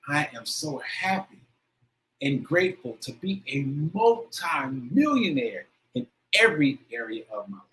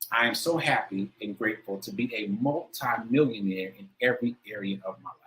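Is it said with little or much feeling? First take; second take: much; little. First: It is said with more feeling. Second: It is said with less feeling.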